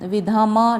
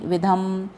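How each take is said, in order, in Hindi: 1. अंतिम व्यंजन के साथ पूरा स्वर है, 'ma'। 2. अंतिम व्यंजन खाली 'm' है, कोई स्वर नहीं। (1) "विधम नहीं" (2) "इसको हम संपूर्ण उच्चारण नहीं करेंगे"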